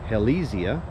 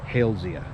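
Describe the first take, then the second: First: The first part does not sound like 'Hales'. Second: The first part sounds like the name 'Hales'. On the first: The speaker calls it wrong. "Some people pronounce it Halesia" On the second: The speaker calls it right. "named after a famous botanist with the last name Hales, so it should be more properly pronounced Halesia"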